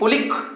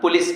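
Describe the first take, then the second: First: The word ends with a k sound. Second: The word ends with an s sound. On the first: The speaker calls it wrong. "ना ना पुलिस पढ़ोगे" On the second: The speaker calls it right. "पुलिस पढ़ोगे"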